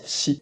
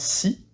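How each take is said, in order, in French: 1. La syllabe commence par un son sh. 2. La syllabe commence par un son s simple. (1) "mais on le prononce chi" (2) "on le prononce pas si"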